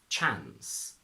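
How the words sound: It has a short flat 'a' vowel. "the R turns into a A"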